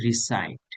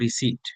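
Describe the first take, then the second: First: The second syllable has an 'eye' vowel. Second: The second syllable has a short 'i' vowel. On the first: The speaker calls it right. "এটা হবে রিসাইট" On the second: The speaker calls it wrong. "কে একজন ওই দিন বলছিল রিসিট"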